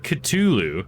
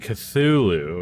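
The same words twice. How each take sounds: First: The name is said with a plain t sound. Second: The name is said with a th sound. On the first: "I've never heard anybody say it that way" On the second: "It's usually Cthulhu with th"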